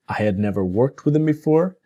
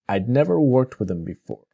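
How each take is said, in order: First: Both words 'I had' are said separately. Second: 'I had' is shortened into one syllable, 'I'd'.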